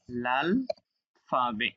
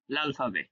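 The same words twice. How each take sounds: First: "লাল", long pause, "ফাবে"; split word by word. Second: "লাল ফাবে" run together without a pause; joined as one word. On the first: Teacher breaking the phrase up for students, "লাল ... ফাবে" word by word. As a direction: say "লাল" and "ফাবে" as two separate words. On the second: Teacher showing students the linked reading, "লাল ফাবে" in one go. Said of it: "একসাথে উচ্চারণ করবেন". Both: Shown as a demonstration.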